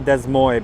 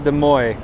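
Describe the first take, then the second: First: The final s sounds are pronounced. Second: The final s sounds are silent.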